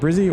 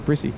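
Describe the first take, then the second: First: The middle consonant is a buzzing z sound. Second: The middle consonant is a hissing s sound. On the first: The speaker calls it right. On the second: The speaker calls it wrong.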